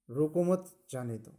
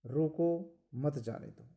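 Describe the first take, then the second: First: रोको, pause, मत जाने दो: break right after रोको so it means stop. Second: रोको मत, pause, जाने दो: pause after मत so it means let go. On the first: Teacher reading the wrong comma placement that flips the meaning. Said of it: "दूसरे में रोको मत जाने दो ये अनर्थ हो गया". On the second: Teacher reading the correct comma placement aloud, slowed. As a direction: say रोको मत with a break before जाने दो, slow. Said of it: "पहले में सही अर्थ है रोको मत जाने दो". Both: Shown as a demonstration.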